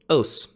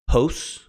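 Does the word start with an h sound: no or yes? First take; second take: no; yes. First: The word begins directly with the vowel. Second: The word begins with an h sound. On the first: "in my pronunciation, it's silent" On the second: "in Erasmian you definitely pronounce the rough breather as an H"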